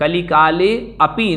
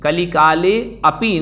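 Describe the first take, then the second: First: The two words are said separately, with api intact. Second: The same.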